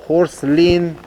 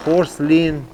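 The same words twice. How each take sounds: The two takes are said the same way.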